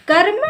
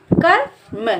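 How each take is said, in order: First: कर्म joined as one quick word, higher; blended reading. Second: कर्म split as "कर, म", higher; broken into parts. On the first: Teacher reading the written word for learners, कर्म blended whole. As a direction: run कर and म together into कर्म. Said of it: "तो इसको हम पढ़ेंगे". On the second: Teacher showing learners where half र goes, कर्म sounded out in parts. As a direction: say कर्म in two pieces, कर then म. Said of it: "आधा रा का उच्चारण करेंगे". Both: Shown as a demonstration.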